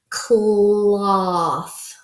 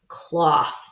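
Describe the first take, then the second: First: The sounds are stretched out slowly, one by one. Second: The sounds are blended into one quick word. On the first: "We're going to stretch it" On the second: "and then blend it together"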